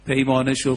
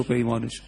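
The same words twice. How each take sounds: First: Said in the usual way. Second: Much softer, lower repeat; soft echo. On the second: Acted. Preacher echoing the verse to the crowd, softly fading. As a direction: let the repeated پیمانه شو fade away like an echo.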